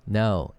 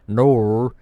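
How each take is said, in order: First: Said in the usual way. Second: Loud, drawn-out NOR with an R; mock Australian NOR, heavy on the R; mispronounced no. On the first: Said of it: "It's no". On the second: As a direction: stretch NOR higher and louder. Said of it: "It's not nor".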